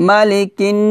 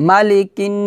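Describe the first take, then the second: No difference in how they are said.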